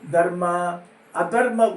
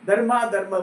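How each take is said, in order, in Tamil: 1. இரண்டாவது வார்த்தைக்கு முன்னால் ஒரு 'a' ஒலி வருகிறது. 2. இரண்டாவது வார்த்தைக்கு முன்னால் 'a' ஒலி வருவதில்லை. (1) "தர்மத்துக்கும் அதர்மத்துக்கும் சொல்லியிருக்கு" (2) "ஆனால் ஜனங்க என்ன சொல்கிறா"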